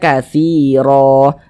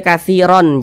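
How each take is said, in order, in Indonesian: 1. Kata ini berakhir dengan vokal panjang terbuka. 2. Kata ini berakhir dengan bunyi n. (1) "Kita baca katsiro" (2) "jangan dibaca katsiron"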